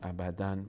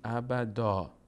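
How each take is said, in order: First: The word ends with an n sound. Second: The word ends with a long a vowel. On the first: The speaker calls it wrong. "وقتی که بخوایم وایستیم نباید بخونیم ابداً" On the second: The speaker calls it right. "باید بگیم ابدا"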